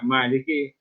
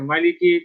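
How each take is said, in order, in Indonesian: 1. Vokal pertama dibaca panjang. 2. Vokal pertama dibaca pendek. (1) "boleh juga Maliki dengan baca yang panjang" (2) "boleh dibaca Maliki tak panjang"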